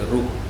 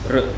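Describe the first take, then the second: First: It is said with an u-like vowel: ru. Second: It is said as a vocalic r alone. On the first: This is how Gujarati and Telugu speakers say it. "In Gujarati and Telugu, they say Ru" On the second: This is the Sanskrit pronunciation. "in Sanskrit it is R"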